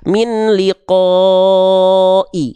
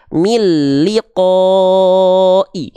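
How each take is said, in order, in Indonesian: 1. Bunyi n tetap dibaca sebelum l. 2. Bunyi n menyatu dengan l. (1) "nggak kita baca" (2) "tapi kita baca"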